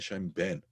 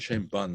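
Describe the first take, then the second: First: The second word has an 'eh' vowel. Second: The second word has an 'ah' vowel. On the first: "they say Shem Ben" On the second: "amongst the Sfardim, they don't say Shem Ban"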